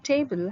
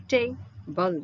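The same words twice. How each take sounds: First: Said in the usual way. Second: "table" broken slowly into TAY, pause, BUL; split into syllables. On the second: Shown as a demonstration. Teacher explaining what a syllable is, "table" split in two. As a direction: say "table" one syllable at a time. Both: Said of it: "table has two syllables".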